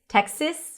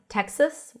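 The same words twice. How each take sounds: First: The second vowel is a lax i. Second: The second vowel is a schwa. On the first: "Texas with a lax I" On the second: "I usually pronounce it as Texas with a schwa"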